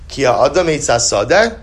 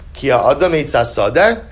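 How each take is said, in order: First: It is said as a question. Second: It is said as a question.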